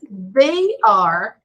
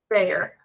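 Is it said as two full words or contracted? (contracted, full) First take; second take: full; contracted. First: Both words are said fully and separately. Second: The words are squeezed into one short syllable.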